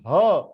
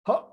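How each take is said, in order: First: The h sound is breathed out fully. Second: The h sound is stopped short with a jerk. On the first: "you are pronouncing it out" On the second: "when you are giving a jerk"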